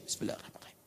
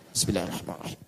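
First: It is said very quietly, almost silently. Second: It is said aloud so others hear.

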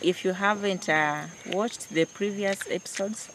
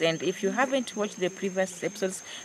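First: The words are spoken slowly. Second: The words are spoken quickly. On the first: The speaker calls it right. "So let me go slowly" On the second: The speaker calls it wrong. "I'm too fast"

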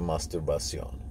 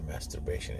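First: The word has a Turkish-style pronunciation. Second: The word has its usual English pronunciation.

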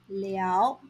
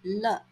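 First: The syllable is pronounced liao, with a full vowel. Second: The syllable is pronounced le, with a light vowel. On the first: The speaker calls it right. "should be pronounced as 了" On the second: The speaker calls it wrong. "and not 了"

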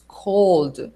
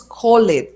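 First: The word sounds just like 'cold'. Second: The word does not sound like 'cold'. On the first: The speaker calls it right. "decimos cold" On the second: The speaker calls it wrong. "No decimos cold"

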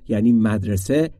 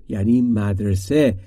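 No difference in how they are said.

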